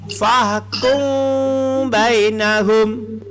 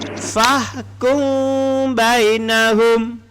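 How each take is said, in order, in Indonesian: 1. Mim disembunyikan dengan dengung sengau, penutupannya longgar. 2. Mim disembunyikan dengan dengung sengau, penutupannya longgar.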